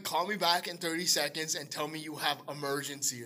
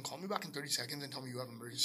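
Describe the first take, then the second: First: Measured, deliberate instruction; patiently insistent retold request; spelled-out repeat. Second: Low, quiet, very fast instruction; quick hushed instruction on the phone; hurried request. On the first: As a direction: spell it out for someone who didn't get it. Repeats request after her baffled What. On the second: Retold or imitated. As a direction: rattle it off under your voice. First hurried request to sister.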